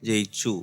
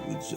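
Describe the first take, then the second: First: The doubled 'ch' sound is pressed firmly. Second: The doubled 'ch' sound is soft and weak. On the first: The speaker calls it right. "ചാക്ക് കുറച്ചുകൂടെ stress കൊടുക്കാം" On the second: The speaker calls it wrong. "അതിങ്ങനെ പോയി"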